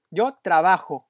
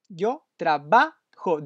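First: Said in the usual way. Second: Yo trabajo said slowly, each syllable clear, stress on trabajo; slow it down for the learner; slow careful demo. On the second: Shown as a demonstration. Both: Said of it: "the stress is in the".

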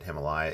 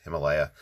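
First: Himalaya in a pen reviewer's variant; European reviewer's pronunciation. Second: Himalaya said the standard English way; standard pronunciation. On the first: Retold or imitated. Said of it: "who pronounces it Himalaya". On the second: Shown as a demonstration. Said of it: "even though it's Himalaya".

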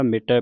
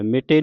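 First: ਮਿਟੈ ending in open "-ai" as in "cat"; ਮਿਟੈ as "mi-tae", double-stroke vowel; open final vowel. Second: ਮਿਟੇ ending in a close "-ay"; ਮਿਟੇ with plain "e" ending; wrong final vowel. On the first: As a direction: finish ਮਿਟੈ on an open, falling "ai". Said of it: "ਮਿਟੈ ਪੜ੍ਹਨਾ". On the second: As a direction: say ਮਿਟੇ as "mi-tay", the mistake. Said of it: "ਮਿਟੇ ਨਹੀਂ ਪੜ੍ਹਨਾ". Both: Shown as a demonstration.

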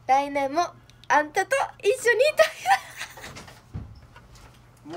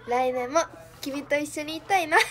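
First: Loud, high Kansai-style あんたと一緒にいたいな; excited Kansai confession; Kansai sweet line. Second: Said in the usual way. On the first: Shown as a demonstration. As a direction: say あんた the Kansai way with louder, higher, fast push. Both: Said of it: "そこはあんたやろ".

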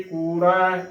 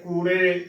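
First: ਕੂੜਾ ending in open ai, koorai; correct pronunciation. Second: ਕੂੜੇ with a close e ending; wrong pronunciation. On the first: Teacher showing the right reading, ਕੂੜਾ as koorai. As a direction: finish ਕੂੜਾ on a wide ai. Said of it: "ਸਹੀ ਉਚਾਰਨ ਹੈ". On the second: Teacher showing the mistake, ਕੂੜੇ ending in e. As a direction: finish ਕੂੜੇ narrow on ay. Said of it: "ਇਹ ਵੀ ਗਲਤ ਹੈ". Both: Shown as a demonstration.

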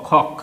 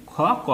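First: খ and ক joined in one syllable, খক; two letters read together. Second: খ and ক as two separate letter sounds; name each letter on its own, খ, then ক; letters said separately. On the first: Teacher shows pupils two bare consonants blended into one খক. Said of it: "তাহলে দুটোকে একসঙ্গে পড়তে হবে". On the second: Teacher points pupils to two bare consonants, খ and ক said apart. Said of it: "পরপর দুটি ব্যঞ্জন বর্ণতে কিছু নেই". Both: Shown as a demonstration.

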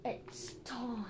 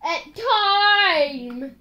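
First: Hushed, whispered announcement. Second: Stretched-out, full-voiced dread; drawn-out announcement. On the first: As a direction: whisper it under your breath. Same words repeated in a whisper. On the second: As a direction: announce it with a long "time". Announces the penalty, then repeats hushed. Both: Real, not acted.

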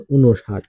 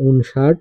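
First: ঊনষাট as "u-no-shat", falling; spoken pronunciation. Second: ঊনষাট as written, "un-shat", rising; spelling reading. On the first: Teacher demonstrates pronunciation, ঊনষাট as "u-no-shat". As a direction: add an o after the n in ঊনষাট. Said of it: "উচ্চারণ". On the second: Teacher reads out a number's spelling, ঊনষাট as "un-shat". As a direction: say ঊনষাট with n straight into sh. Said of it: "বানান". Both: Shown as a demonstration.

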